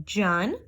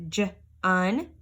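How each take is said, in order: First: Said in the usual way. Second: J-un drawn out slowly; slow segmented j-un. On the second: Shown as a demonstration. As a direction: stretch j-un. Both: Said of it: "Here we have".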